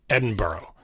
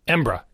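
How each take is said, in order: First: The ending sounds like the word borough. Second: The word shrinks to two syllables, embra. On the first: "like a borough of New York City" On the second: "if you're really in a hurry and you're native Scottish"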